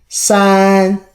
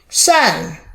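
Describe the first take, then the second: First: It is said with the first tone. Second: It is said with the fourth tone.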